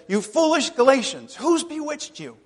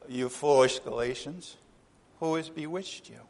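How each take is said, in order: First: It is said with strong emotion. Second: It is said flatly, without emotion.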